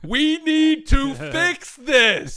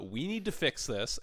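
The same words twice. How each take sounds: First: It is said in a loud, booming voice. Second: It is said in a normal speaking voice.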